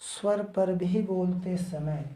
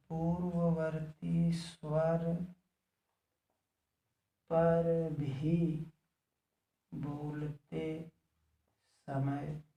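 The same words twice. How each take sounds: First: Said in the usual way. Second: Slow writing-along pace; slow dictation. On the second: Real, not acted. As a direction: dictate slowly with long pauses. Repeats it slowly for writing.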